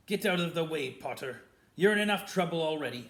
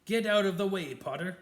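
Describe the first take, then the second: First: Louder, biting snarl. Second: Higher, much louder furious order; furious shout. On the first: Snape ordering Harry out of the doorway, loud snarl. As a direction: spit the order at him. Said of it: "snarled Snape". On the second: Snape ordering Harry aside again, full furious shout. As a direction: blast the command at him. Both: A narrator's reading.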